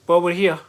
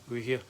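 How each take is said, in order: First: Louder, higher, triumphant; finally arrived, proclaiming it; emphatic announcement. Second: Much softer, lower aside; quiet contented repeat; soft echo. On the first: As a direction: declare it with relief. Relieved arrival after long journey. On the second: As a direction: murmur it back to yourself. Echoing own line softly. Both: Real, not acted.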